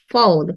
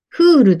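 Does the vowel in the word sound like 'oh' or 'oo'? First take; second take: oh; oo. First: The vowel is a long 'oh' sound. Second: The vowel is a long 'oo' sound. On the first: The speaker calls it wrong. "おを名前読みにするから" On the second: The speaker calls it right. "フールとちょっと違くないですか"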